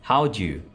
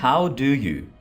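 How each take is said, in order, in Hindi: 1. शब्द घटाकर और आपस में जोड़कर बोले जाते हैं। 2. हर शब्द पूरा और अलग-अलग बोला जाता है। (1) "Reduce कर लेने के बाद बनेगा" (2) "Normal sentence है"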